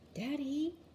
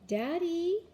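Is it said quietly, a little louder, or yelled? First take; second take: quietly; a little louder. First: It is said very quietly. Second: It is said a little louder.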